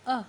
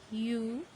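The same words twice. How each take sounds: First: Short "uh" sound for A; short vowel U. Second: Long, held "yoo" for U; long vowel U. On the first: Teacher shows students the letter's sound, short U. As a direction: say A as a brief "uh". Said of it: "sound of the letter". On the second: Teacher shows students the vowel's name, long U. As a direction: say U as the letter name "you". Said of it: "name of the letters". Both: Shown as a demonstration.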